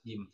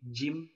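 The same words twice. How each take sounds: First: The j sound is soft without hissing. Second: The j sound is hissed with friction. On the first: The speaker calls it right. "dibacanya benar-benar halus" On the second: The speaker calls it wrong. "tidak boleh didesiskan, tidak boleh jim"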